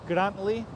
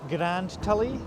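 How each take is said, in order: First: It is said as two syllables, Grant-ley. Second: It is said as three syllables, Grand-Tul-ly. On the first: The speaker calls it right. "In English we say Grantley" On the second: The speaker calls it wrong. "It is not"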